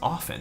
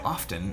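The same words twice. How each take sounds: First: The T sound is silent. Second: The T sound is pronounced. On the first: The speaker calls it right. "You don't pronounce the T" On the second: The speaker calls it wrong. "when people would say often, I was like, ugh"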